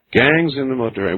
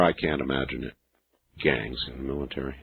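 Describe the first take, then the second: First: Said in the usual way. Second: Very soft and low, to oneself; hushed, low disbelief; low musing. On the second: Real, not acted. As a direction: drop right down, as if thinking aloud.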